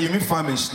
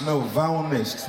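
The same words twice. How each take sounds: First: "famished" said properly as "FAM-isht"; correcting famished. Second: Slow, insistent "famished" as "vow-nesht"; mispronounced famished. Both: Retold or imitated.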